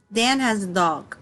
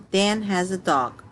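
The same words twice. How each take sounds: The two takes are said the same way.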